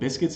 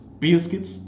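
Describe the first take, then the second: First: It is said in a standard pronunciation. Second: It is said in a dialect pronunciation. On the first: "instead of biscuits" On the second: "it was biscuits"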